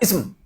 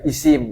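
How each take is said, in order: First: The final consonants are said together without a vowel. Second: A vowel is inserted between the final consonants. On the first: "enggak kita baca ism" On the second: "tapi isim kita bilang"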